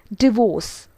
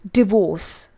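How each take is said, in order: Both takes have the same delivery.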